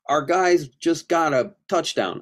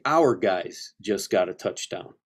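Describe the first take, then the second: First: The first word sounds like 'are'. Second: The first word sounds like 'hour'. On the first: The speaker calls it wrong. "So I don't say" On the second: The speaker calls it right. "I say"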